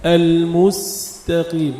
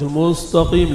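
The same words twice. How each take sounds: First: المستقيم slowly, with a light t; corrected thin ta. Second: المستقيم with a heavy, thickened t; wrong pronunciation demo. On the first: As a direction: draw out s, then thin t in المستقيم. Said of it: "التاء بعدها مرققة". (نطق المستقيم بتاء مرققة) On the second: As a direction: show the mistake in المستقيم, t too full. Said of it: "مش المستقيم، لا". (نطق المستقيم بتاء مفخمة خطأً) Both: Shown as a demonstration.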